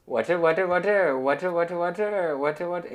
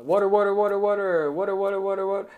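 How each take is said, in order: First: High imitated Indian-accented vendor chant. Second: High, louder chant of WATER, WATER; looped vendor call. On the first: Man correcting his water seller impression, high Indian-accented call. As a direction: loop the street call in a put-on Indian accent. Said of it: "pero con un acento indio". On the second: Retold or imitated. Man retelling a water seller's recording on the bridge, high looped call. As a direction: imitate a recorded street hawker on a loop. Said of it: "En loop diciendo".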